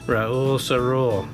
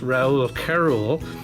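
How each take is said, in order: First: The second name begins with an S sound. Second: The second name begins with a K sound. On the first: The speaker calls it right. "with a S for the C sound" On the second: The speaker calls it wrong. "I used to always call this"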